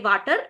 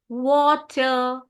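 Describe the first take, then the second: First: The word begins with a v sound. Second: The word begins with a w sound. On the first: The speaker calls it wrong. "For them, it is V. ... they'll say water" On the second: The speaker calls it right. "kiss your W's"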